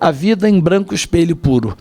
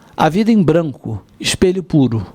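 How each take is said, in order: First: The final and initial vowels merge into one. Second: The final and initial vowels are kept apart. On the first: The regular verse scheme is broken. "vogal átona que poderia ser fundido com a vogal átona inicial do sete" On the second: Two separate four-syllable lines are kept. "aquela primeira leitura que eu apresentei"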